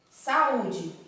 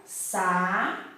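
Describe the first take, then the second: First: Said in the usual way. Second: "sa-u-de" split into three drawn-out syllables with long pauses. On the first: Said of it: "eu tenho aqui a palavra". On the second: Shown as a demonstration. Teacher separating syllables for pupils, "sa-u-de" said piece by piece. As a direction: say "sa-u-de" one syllable at a time, stretching each. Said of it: "Quando eu separar as sí".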